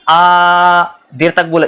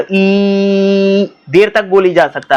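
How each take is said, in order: First: आ stretched out long and slow; sustained vowel demo; held long vowel. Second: ई drawn out very slow; slow sustained vowel demo; held long vowel. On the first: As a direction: draw the आ out slowly. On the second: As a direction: stretch the ई long to show it lasts. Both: Shown as a demonstration.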